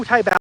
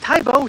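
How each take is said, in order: First: "Tae Bao" ending in "bao" like "cow". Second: "Tae Bo" said with a plain "bo" ending; "Tae Bo" rhymed with "go". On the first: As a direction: try "Tae Bao" with an "ow" sound. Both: Shown as a demonstration. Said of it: "I can't remember anymore".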